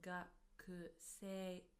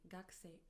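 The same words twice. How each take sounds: First: The vowel after the k is fully heard. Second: The vowel after the k is dropped. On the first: "Although we write it as gakusei" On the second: "as if the u from ku disappears"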